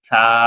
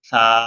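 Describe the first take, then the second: Both takes have the same delivery.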